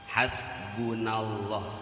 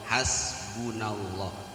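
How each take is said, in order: Both takes have the same delivery.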